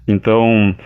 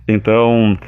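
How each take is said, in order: Both takes have the same delivery.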